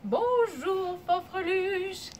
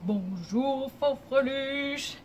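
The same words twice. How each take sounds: First: It is said in a medium-pitched voice. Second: It is said in a deep, low voice.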